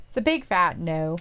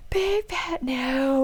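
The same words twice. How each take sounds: First: Said in the usual way. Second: BIG and NO stretched long, higher pitched; drawn-out refusal. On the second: Real, not acted. Co-host rejects the love triangle, exaggerated drawn-out no. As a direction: repeat it very slowly, stretching every word.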